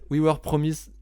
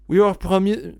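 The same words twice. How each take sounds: First: It is said with a strong French accent. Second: It is said with a strong English accent. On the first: "Dis-le avec l'accent français" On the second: "Waouh, waouh, d'accent"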